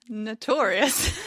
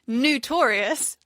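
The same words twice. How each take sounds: First: The word begins with a plain 'no' sound. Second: The word begins with a 'new' sound. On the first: The speaker calls it right. "when actually it's notorious" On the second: The speaker calls it wrong. "you say notorious ... Everything starts with a new"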